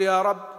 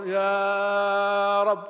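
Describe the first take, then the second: First: It is said normally, with a short vowel. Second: It is said with a long, drawn-out vowel.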